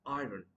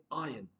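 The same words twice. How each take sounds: First: Iron as "eye-run"; mispronounced iron. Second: Iron as "eye-un", silent R; correct pronunciation. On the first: Teacher showing what not to say, iron as "eye-run". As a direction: sound the R inside iron. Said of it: "not iron". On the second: Teacher contrasting right with wrong, Iron as "eye-un". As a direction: drop the R in Iron. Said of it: "R would be silent". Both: Shown as a demonstration.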